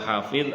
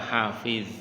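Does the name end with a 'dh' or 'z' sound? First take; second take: dh; z. First: The name ends with a soft 'dh' sound. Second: The name ends with a buzzing 'z' sound. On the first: Someone who guards or memorizes. The speaker calls it right. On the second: Someone holding in wind. The speaker calls it wrong.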